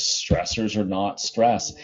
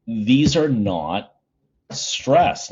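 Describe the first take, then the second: First: Slowed, each word of Stressors are not stress weighted; slow emphatic restatement. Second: NOT leaned on, then a long pause before a rising stress; drawn out, pause before stress; slow emphatic statement. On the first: Teacher repeating the key point to students, slow and firm. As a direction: say it slowly and firmly. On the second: Teacher stressing a key point to students, slow with a pause. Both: Shown as a demonstration. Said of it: "it's a really key point".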